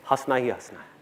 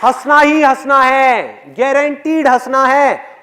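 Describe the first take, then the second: First: Low, soft delivery of the line; understated assurance. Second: Loud, high, slow declaration; emphatic guarantee. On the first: Speaker assures audience they will laugh, understated and low. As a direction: drop the voice, matter-of-fact. Understated first take of punchline. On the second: Speaker guarantees audience will laugh, loud and emphatic. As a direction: proclaim it slowly at full voice. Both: Real, not acted.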